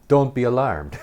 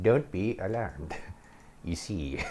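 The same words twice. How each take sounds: First: High, loud mock announcement; loud imitated psychiatrist. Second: Hammed-up witch, dropping softer at the end; weird witch voice. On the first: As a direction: imitate her, pitched up and loud. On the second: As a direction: imitate a creepy witch. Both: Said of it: "with this weird witch voice".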